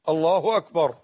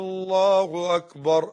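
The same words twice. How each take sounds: First: The opening vowel of the first word is short. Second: The opening vowel is drawn out, like a question. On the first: It states that God is the greatest. The speaker calls it right. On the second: It asks whether God is the greatest. The speaker calls it wrong.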